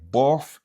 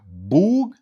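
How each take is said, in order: First: It ends in an f sound. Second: It ends in a hard g sound. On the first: "Ni se pa plof ou bien bof" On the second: "se pa boug"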